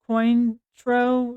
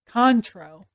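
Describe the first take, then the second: First: The name is read out just as spelled. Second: The name is said with a French sound. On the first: The speaker calls it wrong. "which is probably not how you say that" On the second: The speaker calls it right. "it's pronounced um Contro"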